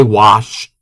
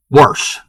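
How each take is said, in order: First: Said in the usual way. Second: WASH said with an added R, "warsh"; Maryland pronunciation. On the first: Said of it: "normally I say wash". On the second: Shown as a demonstration. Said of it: "it's very popular to say wash".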